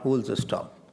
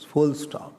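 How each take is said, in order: First: The first word is said as 'fools'. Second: The first word is said as 'full'. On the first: The speaker calls it wrong. "not fools stop" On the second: The speaker calls it right. "It's full stop"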